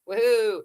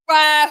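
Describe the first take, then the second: First: It is said limply, like a bored afterthought. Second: It is said loudly, with real excitement.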